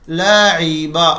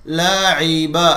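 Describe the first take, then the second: The two takes are said the same way.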